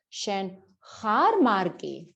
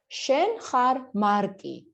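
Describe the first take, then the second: First: The pitch rises on the verb. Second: It is said as a flat statement. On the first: It asks whether the listener is Mark. "rising tone" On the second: It states that the listener is Mark. "you are Mark"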